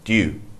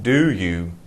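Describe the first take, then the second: First: It is squeezed into a single syllable. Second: It is said as two separate syllables. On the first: The speaker calls it right. "We pronounce it with one syllable" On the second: The speaker calls it wrong. "not do you"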